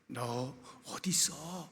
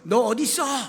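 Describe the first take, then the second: First: It sounds warm and anxiously longing. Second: It sounds angry and rebuking. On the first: The caller longs for them with compassion. The speaker calls it right. "지극히 긍휼의 마음을 품고 아담과 하와를 찾으시는 따스한 소리죠" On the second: The caller is furious and wants to rebuke them. The speaker calls it wrong. "극도로 분노하셔서 ... 책망하시기 위하여 찾으시는 소리로도 들릴 수가 있어요"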